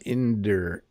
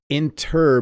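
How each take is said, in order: First: The middle consonant is a soft D sound. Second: The middle consonant is a clear T sound.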